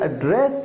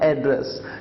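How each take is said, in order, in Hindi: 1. ज़ोर दूसरे अक्षर पर है। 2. ज़ोर पहले अक्षर पर है। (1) "जब आप इसे एक क्रिया की तरह यूज करते हैं" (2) "जब आप इसे एज ए नाउन यूज करते हैं"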